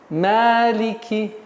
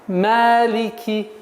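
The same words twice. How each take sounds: Both takes have the same delivery.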